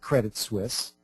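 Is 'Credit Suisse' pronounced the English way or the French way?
English. The name is pronounced the English way. The speaker calls it wrong. "not Credit Suisse"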